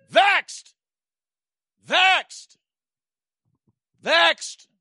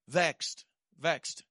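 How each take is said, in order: First: Much higher, loud cried-out word "Vexed"; shouted refrain. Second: Said in the usual way. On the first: Acted. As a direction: cry "Vexed" out to the church.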